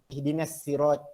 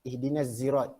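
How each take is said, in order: First: Sirat begins with a plain, light s sound. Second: Sirat begins with a voiced z sound. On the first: "dengan sin" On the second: "dan zai"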